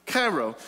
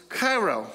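No difference in how they are said.

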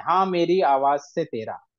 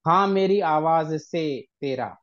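First: मेरी आवाज से तेरा with every syllable drawn out; wrong metre. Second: Slow, over-weighted मेरी आवाज से तेरा; wrong metre again. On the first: Teacher shows the wrong, over-stretched reading. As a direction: stretch each syllable too long. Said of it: "ऐसा थोड़ी होगा". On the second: Teacher repeats the wrong way it is not spoken. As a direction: sound out each syllable heavily. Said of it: "ऐसा नहीं बोल रहे हैं". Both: Shown as a demonstration.

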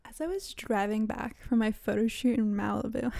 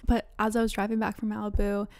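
First: Lightly affected humblebrag; a hint of showy name-dropping; mock bougie. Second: Said in the usual way. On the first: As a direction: repeat it with a touch of mock self-importance. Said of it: "wow, that sounded so fucking bougie".

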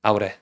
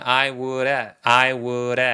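First: "I would" run together as a short "ah-woo-reh"; quick reduced pronunciation. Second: "I would" stretched out as "ai woo-reh"; slow linked pronunciation. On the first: Teacher demonstrating the easy version, quick and reduced. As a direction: clip "I would" into one linked, tapped unit. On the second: Teacher slowing it down for students, linked sounds stretched. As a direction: draw out "I would", D tapped like R. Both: Shown as a demonstration. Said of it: "천천히 하게 되면".

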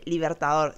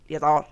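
First: Said in the usual way. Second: Libertador with its consonants swallowed, roughly "iertaor"; posh swallowed pronunciation. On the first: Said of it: "no se dice Libertador". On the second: Shown as a demonstration. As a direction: mumble Libertador as if potato-mouthed. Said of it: "que hablaba todo así".

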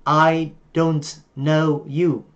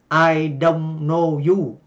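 First: "I don't know you" with a clear final t in "don't"; slow, careful "I don't know you" with a full "don't"; correct English. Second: "I don't know you" with "don't" said flat as Vietnamese "đôn"; Vietnamese-style English. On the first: Teacher models the correct pronunciation after the wrong one. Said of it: "nếu phát âm chính xác thì chúng ta sẽ nói là". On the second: Teacher imitating how Vietnamese learners say "I don't know you". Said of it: "người Việt chúng ta đọc quen thì chúng ta nói như thế này". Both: Shown as a demonstration.

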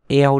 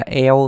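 First: "eo" with a slight y glide in front; correct pronunciation. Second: "eo" with no y before it; wrong pronunciation. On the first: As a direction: slide from a short y into "eo". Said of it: "nó có Y đằng trước một chút". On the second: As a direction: say a bare "eo", starting straight on the vowel. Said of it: "Đừng đọc là". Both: Shown as a demonstration.

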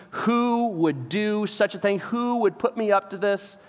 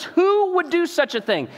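First: Said in the usual way. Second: High indignant repeat; outraged king. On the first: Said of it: "that very important question". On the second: Retold or imitated. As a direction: demand the answer again, pitched up. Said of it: "He says".

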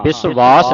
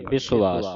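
First: ਵਿਸ਼ਵਾਸ loud, with a stressed v in the second syllable; wrong reading. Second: ਵਿਸ਼ਵਾਸ as bi-su-aas, lower; correct pronunciation. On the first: Teacher warning the student off a misreading, wrong pronunciation. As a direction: punch the mistaken v in ਵਿਸ਼ਵਾਸ. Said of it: "ਵਿਸ਼ਵਾਸ ਨਹੀਂ ਪੜ੍ਹਨਾ". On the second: Teacher modelling after spelling it out, correct pronunciation. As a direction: let the ਵਾਵਾ in ਵਿਸ਼ਵਾਸ sound as a vowel. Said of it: "ਇਹ ਜਿਹੜਾ ਵਾਵਾ ਇਹਨੇ ਐੜੇ ਦੀ ਆਵਾਜ਼ ਕੱਢਣੀ". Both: Shown as a demonstration.

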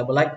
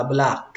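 First: "black" as short Vietnamese "bờ-lách"; mispronounced black. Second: "black" with a long open a and final k; correct English black. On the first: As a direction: clip the vowel of "black" into "bờ-lách". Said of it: "không phải là black". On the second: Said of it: "cách đọc đúng là black". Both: Shown as a demonstration.

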